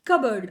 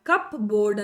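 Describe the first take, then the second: First: It is said as kabard, with no P. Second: It is said as cup plus board, with P. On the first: The speaker calls it right. "ಕಬರ್ಡ್ ಅಷ್ಟೇ ಅಂತಾರೆ" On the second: The speaker calls it wrong. "ಪಿ ಅನ್ನ ಬಿ ಅನ್ನ ಕೂಡಿಸಿ ನೀಟಾಗಿ ಹೇಳಕ್ಕಾಗಲ್ಲ"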